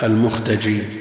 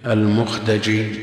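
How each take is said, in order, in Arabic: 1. الدال تتبعها حركة 'a'. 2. الدال تتبعها حركة 'a'.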